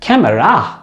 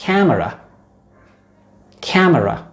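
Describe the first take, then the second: First: camera punched on the final रा, "came-RAA"; wrong last-syllable stress. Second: camera stressed on कै, "KAM-era"; stress on first syllable. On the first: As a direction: hit and lengthen रा at the end of camera. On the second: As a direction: lean on कै, let मरा fall away lightly in camera. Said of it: "this is called syllable stress". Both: Shown as a demonstration.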